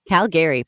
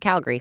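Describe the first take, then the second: First: It is said the way outsiders say it. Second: It is said the way locals say it. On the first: The speaker is not from the city. The speaker calls it wrong. "you can tell when someone's not from Calgary because they say Calgary" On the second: The speaker is from the city. The speaker calls it right. "but it's Calgary"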